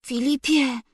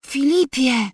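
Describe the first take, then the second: First: A sick mother's faint call; barely find the strength to call his name, softer; weak voice. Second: A sick mother calling once more; weak voice, called again. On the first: Sick mother calling her sleeping husband, weak and faint. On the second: Sick mother calling her husband a second time, weakly. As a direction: try his name a second time, a little fuller but still weak. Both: A narrator's reading. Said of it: "rzekła słabym głosem".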